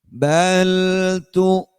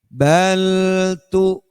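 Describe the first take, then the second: The two takes are said the same way.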